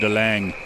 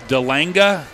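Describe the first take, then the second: First: The name ends on the final consonant. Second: The name ends with an added vowel sound. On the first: "the English pronunciation"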